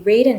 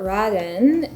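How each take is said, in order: First: It is said with an English-style pronunciation. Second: It is said with a Japanese-style pronunciation.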